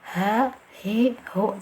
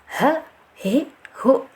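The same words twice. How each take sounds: First: The breath and voice flow out freely. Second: The sound is pressed and held back. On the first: The speaker calls it right. "mengalirkan udara atau nafas, dari segi suara mengalirkan suara" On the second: The speaker calls it wrong. "jangan ditekan"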